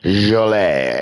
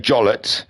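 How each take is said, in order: First: The name is said with a foreign pronunciation. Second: The name is said with an English pronunciation. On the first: "he's probably foreign, and it's probably Jolet" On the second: "the English would say Jollett"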